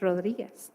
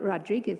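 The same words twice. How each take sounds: First: The name is said with a Spanish pronunciation. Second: The name is said with an English pronunciation. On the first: The speaker calls it right. "it's Rodriguez" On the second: The speaker calls it wrong. "it's not Rodriguez"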